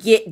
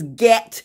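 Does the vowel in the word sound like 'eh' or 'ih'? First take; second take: ih; eh. First: The vowel sounds like 'ih', as in git. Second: The vowel sounds like 'eh', as in bet. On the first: The speaker calls it wrong. "was not get, G-I-T" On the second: The speaker calls it right. "The word was get, T-E-T"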